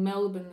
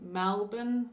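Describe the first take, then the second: First: The first vowel sounds like 'e'. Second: The first vowel sounds like 'a'. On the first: "instead of saying Melbourne" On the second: "they say Malbourne. It's more like an A"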